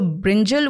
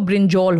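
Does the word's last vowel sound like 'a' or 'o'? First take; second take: a; o. First: The last vowel is a plain 'a' sound. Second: The last vowel is rounded to an 'o' sound.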